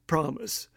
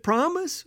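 First: Soft low "Promise.", barely above a murmur; quiet reassurance. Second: Put-on small boy's hopeful "Promise?", rising high; grandson asking promise?. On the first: Retold or imitated. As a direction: answer "Promise." gently and quietly to a child. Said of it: "I said". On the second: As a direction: ask "Promise?" like an eager little kid, pitch climbing. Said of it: "He said".

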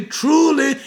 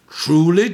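First: The emphatic truly rings out over the first. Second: Said in the usual way. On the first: Shown as a demonstration. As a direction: hit truly hard and high. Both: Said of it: "in the emphatic sense".

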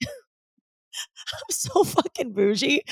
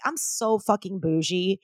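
First: High, drawn-out, laughing self-mockery; laugh, then squeal it out slowly; laughing admission. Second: Said in the usual way. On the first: Real, not acted. Owning up to glamping in the mountains, real laughing admission.

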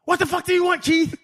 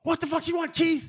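First: High, loud mock-irritated curse; a coach losing patience; irritated snap. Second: Cussing. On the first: Saban curses back at the hollering lineman, a high irritated snap. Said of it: "That's what made Truck snap". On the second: Retold or imitated. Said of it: "He cussed".

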